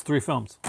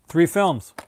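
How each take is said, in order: First: Said in the usual way. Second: THREE films, punched loud and firm; stress on three. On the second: Shown as a demonstration. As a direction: hit "Three" hard, then land "films".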